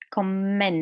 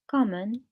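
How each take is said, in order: First: The stress is on the second syllable. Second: The stress is on the first syllable. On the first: It is used as a verb. "In the verb, the stress is on the second part here" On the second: It is used as a noun. "the noun"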